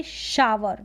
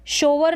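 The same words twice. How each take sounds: First: शावर as "shaa-wer"; शावर like English "shower"; ow sound. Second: शोवर as "show-ver"; शोवर with a rounded first vowel; wrong long o. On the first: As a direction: say शावर with an open "aa" in front. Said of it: "इसको पढ़ेंगे शावर". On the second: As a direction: say शोवर with "oh" in front. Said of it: "शोवर नहीं पढ़ेंगे". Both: Shown as a demonstration.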